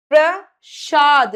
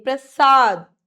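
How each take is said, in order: First: प्रसाद slowed, with "shaad"; hushing sh in प्रसाद; sh error. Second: प्रसाद with a clean, punched "saad"; plain s in प्रसाद, louder; s sound. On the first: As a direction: say प्रसाद wrongly as "prashaad". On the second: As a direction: say प्रसाद firmly as "prasaad". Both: Shown as a demonstration. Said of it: "नहीं".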